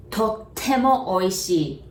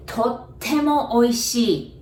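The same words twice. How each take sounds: The two takes are said the same way.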